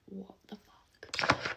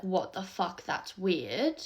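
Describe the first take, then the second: First: Slow, imitated whisper of disbelief; mock whisper. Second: Voiced out openly, only mildly loud; retold quite loud. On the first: Mum reacting to the man beside them, mock whisper. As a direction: whisper it like a stunned mum, drawn out. Mum's shocked hushed reaction, retold. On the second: Mum remarking within the man's earshot, retold quite loud. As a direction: imitate mum saying it aloud, no whisper. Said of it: "like, quite loudly".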